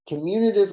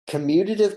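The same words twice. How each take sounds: First: The middle sounds like 'commune', with an n. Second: The middle sounds like 'commute', with a t. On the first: The word relates to getting together and sharing. The speaker calls it wrong. "Commutative comes from the word commune" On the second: The word relates to moving around. The speaker calls it right. "commutative comes from the word commute"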